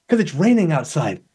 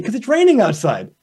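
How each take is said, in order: First: Mildly grumpy. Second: A bit higher, brighter and pleased; cheerfully happy. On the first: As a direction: grumble it like the rain ruined your day. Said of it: "I'm so angry right now". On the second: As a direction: say it like the rain is a gift. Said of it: "they look really happy". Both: Retold or imitated.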